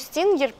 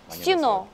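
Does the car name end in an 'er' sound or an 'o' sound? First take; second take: er; o. First: The name ends in an 'er' sound. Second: The name ends in an 'o' sound. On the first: "вот я говорю Stinger" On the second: "на корейском эта машина произносится как Stino"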